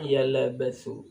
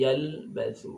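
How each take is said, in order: First: An extra vowel is inserted after the l. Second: No vowel is inserted after the l. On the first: The speaker calls it wrong. "tidak boleh dibaca yalabathu" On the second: The speaker calls it right. "tapi yalbathu, jalan sedikit"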